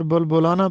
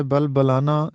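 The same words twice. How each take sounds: First: Short u after both b's in بلبلانا; common mispronunciation. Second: Short a, not u, in both halves of بلبلانا; correct pronunciation. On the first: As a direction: say بلبلانا as "bulbulana". (بلبلانا کو پیش کے ساتھ "بُلبُلانا" پڑھیں) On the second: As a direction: say بلبلانا as "balbalana". (بلبلانا کو زبر کے ساتھ "بَلبَلانا" پڑھیں) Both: Shown as a demonstration. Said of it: "جو کہ غلط ہے".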